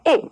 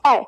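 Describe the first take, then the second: First: ए as one held, unchanging sound; pure vowel. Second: आए gliding from आ to ए; gliding vowel. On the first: Teacher contrasting two vowels for pupils, ए held as one sound. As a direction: hold ए long without gliding. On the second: Teacher contrasting two vowels for pupils, आए as a glide. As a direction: slide slowly through both sounds in आए. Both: Shown as a demonstration. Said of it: "दोनों के उच्चारण में अंतर है".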